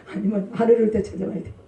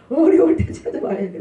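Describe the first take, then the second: First: Light quick question with a laugh; teasing question. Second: 어려울 stressed, falling to a firm close; firm answer. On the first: Preacher quizzing the congregation, laughing quick question. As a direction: toss out 안 어려울 때 as a playful trap, quick and laughing. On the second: Preacher answering his own question, firm stress on 어려울. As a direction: lean on 어려울 and settle the answer downward. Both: Shown as a demonstration.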